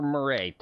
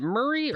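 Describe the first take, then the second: First: Murray ending in a long AY; Murray with a drawn-out AY ending; alternative pronunciation of the name. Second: Murray ending in an EE sound; Murray, rhyming with hurry; first pronunciation of the name. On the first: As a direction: say Murray as mur-AY. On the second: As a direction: say Murray as MUR-ee. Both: Shown as a demonstration. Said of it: "make sure I pronounce your name correctly".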